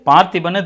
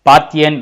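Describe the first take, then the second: First: The word ends with a 'ban' sound. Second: The word ends with a 'yan' sound. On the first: This is the Tamil rendering of the name. "அது பார்த்திபன் தமிழில் வருது" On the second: This is the English pronunciation of the name. "இங்கிலீஷில் pronounce பண்ணும்போது அது வேறு மாதிரி வரும்"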